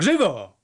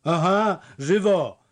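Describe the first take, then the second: First: Loud, high barked Żywo; angry order. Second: High, loud simple-minded parroting; idiotic echo. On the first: Fisherman urging his men on, angry shout. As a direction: snap Żywo at the farmhands. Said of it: "krzyczał i krzyczał". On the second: The village idiot repeating the fisherman's command, foolish echo. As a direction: parrot the shout like a halfwit. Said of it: "powtórzył idiotycznie znajda". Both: A narrator's reading.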